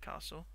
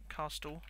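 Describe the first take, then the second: First: The word is said with its usual pronunciation. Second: The word is sounded out the way it's spelled. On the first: The speaker calls it right. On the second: The speaker calls it wrong.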